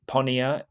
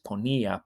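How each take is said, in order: First: The stress falls away from the middle syllable. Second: The stress falls on the middle syllable. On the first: The speaker calls it wrong. "It's not ponía" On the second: The speaker calls it right. "it's ponía"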